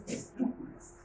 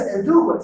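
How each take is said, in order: First: "esdrújulas" with its final S kept, softer; final S pronounced. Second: "esdrújulas" without its final S; final S dropped. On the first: Teacher shows students the correct form, final S pronounced. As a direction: say "esdrújulas" quietly, ending on the S. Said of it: "sino dices esdrújulas". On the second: Teacher shows students the wrong form, final S dropped. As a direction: say "esdrújulas" with the last S cut off. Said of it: "cuando nosotros pronunciamos, no dices esdrújulas". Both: Shown as a demonstration.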